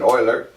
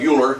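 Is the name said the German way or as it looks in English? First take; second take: German; as spelled. First: The name is said with the German pronunciation. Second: The name is said as the English spelling suggests. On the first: The speaker calls it right. "Germans would pronounce that Euler" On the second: The speaker calls it wrong. "it looks like Euler"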